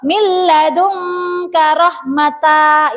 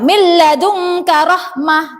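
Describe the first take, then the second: First: The last word ends in a t then vowel. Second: The last word ends in a soft h sound. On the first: The speaker calls it wrong. "itu salah ya" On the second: The speaker calls it right. "yang tepat adalah dibaca hak sukun"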